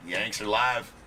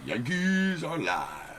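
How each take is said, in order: First: Said in the usual way. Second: High, slow drawn-out announcer call. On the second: Acted. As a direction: stretch it out like a ring announcer. Sung-out announcement of team.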